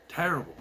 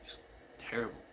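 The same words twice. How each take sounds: First: Said in the usual way. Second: Whispered softly, no voice at all. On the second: Real, not acted. Recalling the screaming brother, a soft whisper. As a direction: drop to a breathless whisper for emphasis. Comment then whispered repeat.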